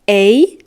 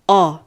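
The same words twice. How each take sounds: First: The vowel sounds like the one in snake. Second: The vowel sounds like the one in ball.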